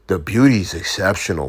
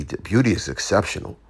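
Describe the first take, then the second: First: Put-on South African accent. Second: Said in the usual way. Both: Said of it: "With the South African accent".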